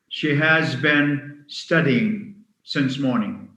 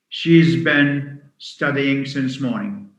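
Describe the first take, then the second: First: The word has is said in full. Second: Has is reduced to a z sound.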